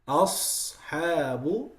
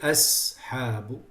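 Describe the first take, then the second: First: The s sound is heavy and emphatic. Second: The s sound is light and thin. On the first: The speaker calls it right. "It has to be heavy" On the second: The speaker calls it wrong. "You can't say أسحاب"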